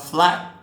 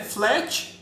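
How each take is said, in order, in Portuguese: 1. A vogal soa como um 'a' aberto. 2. A vogal soa como um 'e'. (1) "A gente não fala flat" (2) "Flat a gente chama até com E"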